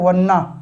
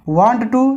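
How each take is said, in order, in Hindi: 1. दोनों शब्द मिलकर एक छोटा, घटा हुआ रूप बन जाते हैं। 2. दोनों शब्द पूरे और अलग-अलग बोले जाते हैं।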